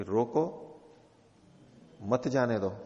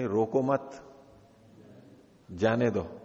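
First: रोको on its own, then a break before मत जाने दो; pause after रोको. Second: रोको मत run together, then a break before जाने दो; pause after मत. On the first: Teacher voices the king's order to the officer, pause after रोको. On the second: Teacher gives the officer's misreading of the king's order, pause after मत. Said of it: "तो उसने वाक्य का अर्थ कहा कि". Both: Shown as a demonstration.

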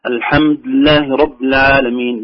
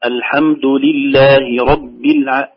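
First: "الحمد لله رب" with bare consonant endings; slow recitation, dropping the u of "الحمد" and i of "رب"; vowels lost. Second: "الحمد لله رب" as "alhamdu lillahi rabbi"; very slow, every short ending vowel distinct; fully sounded vowels. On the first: Retold or imitated. Teacher showing vowels slipping to sukun, "alhamd lah rab". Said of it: "مالت إلى السكون". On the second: Shown as a demonstration. Teacher correcting the slurred take, clear vowels on "الحمد لله رب". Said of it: "تصبح القراءة الآن ناصعة".

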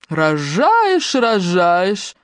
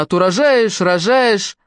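First: A sneering parody of the last words, a touch nasty; nasty mocking mimicry. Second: Said in the usual way. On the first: A narrator's reading. Белла lightly mocking Мотя's words in a nasty voice. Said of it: "передразнила Белла противным голосом". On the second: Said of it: "задумчиво сказала она".

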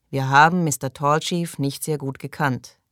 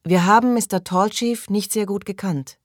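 First: Subdued repeat of the prayer line; group prayer response. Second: Higher-pitched leading prayer line; prayer leader. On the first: A narrator's reading. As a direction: answer the leader evenly, in your usual pitch. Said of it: "wiederholten sie". (gleichmäßig nachbetend) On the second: Acted. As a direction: lead the group in prayer, pitched up. Leader recites prayer, others repeat. (vorbetend, mit erhobener Stimme)

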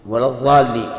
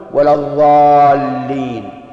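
First: Said in the usual way. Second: Slow chanted ولا الضالين, the ض said as ظ; drawn-out zha sound. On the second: Shown as a demonstration. Teacher chanting the mistaken ظ in الضالين slowly. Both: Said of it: "إبدال الضاد ضاء".

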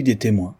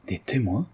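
First: Said in the usual way. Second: Stunned murmur. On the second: A narrator's reading. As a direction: echo it under your breath, taken aback. (murmure interdit, blême) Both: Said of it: "murmura Valérien devenu blême".

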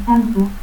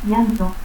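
First: Zantu, a harder sound for LL, final u; altered LL. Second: Said in the usual way. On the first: Shown as a demonstration. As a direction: say llanto as "Zantu". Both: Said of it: "teísmo".

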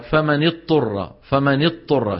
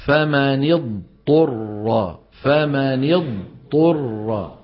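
First: "اضطر" said as a doubled ta; merged "فمن اضطر" with tta; dad merged into ta. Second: "اضطر" with a clear dad before the ta, very slow; slow, separated dad and ta in "فمن اضطر"; dad then ta. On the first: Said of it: "شو بينطق؟ طاء مشددة". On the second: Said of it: "اسمعني جيدا". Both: Shown as a demonstration.

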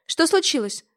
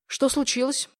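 First: Высоко и громко, в тревоге; спросить в панике; испуганно. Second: Said in the usual way. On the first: A narrator's reading. Мать в испуге. (мать в испуге спрашивает сына)

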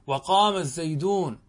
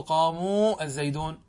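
First: وقام الزيدون linked, with short a after the m; no plural waw. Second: قاموا with a slow, long uu, then a break before الزيدون; wrong plural waw. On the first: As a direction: run وقام straight into الزيدون, no uu. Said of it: "هكذا دون واو". (وصل «وقام الزيدون» دون واو الجماعة) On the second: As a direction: stretch the uu ending of قاموا, separate from الزيدون. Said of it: "لا تقل". (مدّ واو الجماعة في «قاموا» ثم «الزيدون») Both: Shown as a demonstration.

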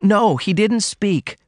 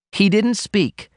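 First: High and slow, patiently explaining. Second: Put-on a young woman blurting it out, raised high; blurted out. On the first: Daughter correcting her mother, high and slow. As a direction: spell it out gently to her mother. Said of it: "Ruth explained". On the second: Daughter confessing to her mother, blurted high. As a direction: she blurts it out before she can stop. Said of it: "she blurted out". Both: A narrator's reading.

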